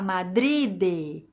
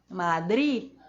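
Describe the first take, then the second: First: The tongue drops, releasing an audible final D. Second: The tongue stays raised; the final D is unreleased. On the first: The speaker calls it wrong. "A gente não vai deixar ela cair e falar Madrid" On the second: The speaker calls it right. "Não"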